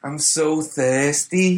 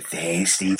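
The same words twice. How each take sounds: First: Slow, higher Scouse drawl; Liverpool accent. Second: High, soft Scouse echo; Liverpool accent. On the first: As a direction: stretch it out like a Scouser. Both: Retold or imitated. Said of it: "Is that your Liverpool accent?".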